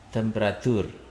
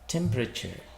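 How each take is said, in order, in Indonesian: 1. Tekanannya ada pada suku kata yang lebih belakang. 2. Tekanannya ada pada suku kata pertama. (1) "Itu sering kita baca temperatur" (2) "stresnya silabelnya di di pertama"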